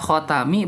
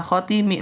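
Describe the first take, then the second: First: The second syllable has the vowel a. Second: The second syllable has the vowel i. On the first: "boh dibaca khotami" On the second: "maca kasru lebih masyhur"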